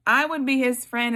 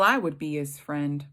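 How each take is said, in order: First: Higher and louder, stressing "I"; emphatic. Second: Said in the usual way. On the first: Shown as a demonstration. Preacher insisting she would befriend Job, emphatically. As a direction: declare it boldly the second time.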